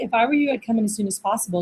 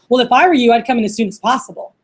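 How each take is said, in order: First: It sounds normal, helpful and friendly. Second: It sounds pushy and off-putting.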